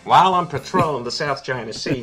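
It is read in a put-on voice.

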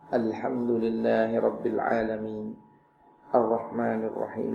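There is a pause after each verse. The speaker calls it right. "Nabi memotong setiap ayat demi ayat"

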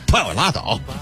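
It is said in a heated, sulky, defiant manner. "这种有点赌气的劲头"

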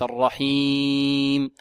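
The word is said with nasal resonance. The speaker calls it wrong. "وليس الرحيم، صوت من الأنف"

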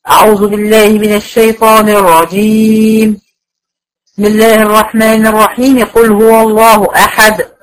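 A pause follows only the first phrase. The first part is separated; the rest are joined. "اقطع الاستعاذه عن البسملة واوصل البسملة بالاول الصورة"

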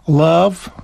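The word is said in an American accent. "They would speak like that"

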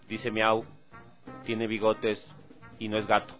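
It is said in a very serious tone. "Lo voy a decir así súper serio ya"

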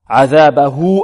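The final h is followed by a long u. "فتوصل هنا بواو لفظية في حالة الوصل"

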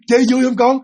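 The question sounds bright and cheerful. An ordinary mother happily asking her child. "Cái tông giọng mình nó phải là vui vẻ lên. Nó tươi sáng lên"

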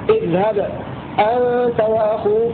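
A brief stop comes after the first word. "وهذا وجه السكت"

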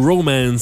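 The word is said with an English pronunciation.

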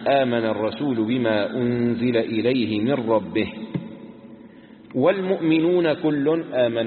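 The pause comes right after the word rabbihi. The believers start a new clause; all refers only to them. The speaker calls it wrong. "وعلى الثاني إذا كانت مبتدأ يوقف على من ربه"

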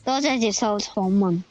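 The phrase is spoken in Cantonese.

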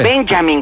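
The name is said with an English accent. The speaker calls it right. "con acento inglés"

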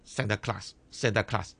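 The name is said with a Dutch pronunciation. "聖尼古拉斯喺荷蘭語裏邊咧，佢叫做Santa Claus"

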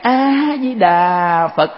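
It is said softly and gently, with respect. The speaker greets the monks with reverence. The speaker calls it right. "cách nói ra là đi vào cổng chùa khác"

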